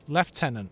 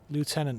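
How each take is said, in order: First: It is said with a British pronunciation. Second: It is said with an American pronunciation. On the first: "as the British would say" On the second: "as the Americans would say"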